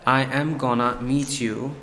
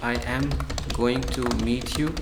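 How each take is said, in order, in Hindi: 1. यह छोटे रूप 'gonna' में बोला जाता है। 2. यह पूरे रूप 'going to' में बोला जाता है।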